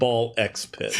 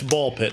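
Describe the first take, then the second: First: The X is spoken aloud between the words. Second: The X is silent between the words. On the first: The speaker calls it wrong. "not Ball X Pit" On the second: The speaker calls it right. "it's Ball Pit"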